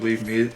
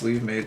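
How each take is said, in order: First: The second part rhymes with 'seat'. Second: The second part rhymes with 'late'. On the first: The speaker calls it right. "It's actually leave meat" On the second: The speaker calls it wrong. "I think I used to call it a leave mate"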